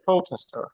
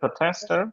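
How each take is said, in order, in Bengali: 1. এটি আমেরিকান উচ্চারণে বলা হয়েছে। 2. এটি ব্রিটিশ উচ্চারণে বলা হয়েছে। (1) "ইউএসএ প্রোটেস্টার" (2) "ইউকে তে হচ্ছে প্রোটেস্টার"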